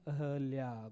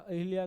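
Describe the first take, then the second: First: The vowel after the h is a. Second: The vowel after the h is i. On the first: The speaker calls it right. "क्या है, अहल्या" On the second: The speaker calls it wrong. "अहिल्या नहीं होता"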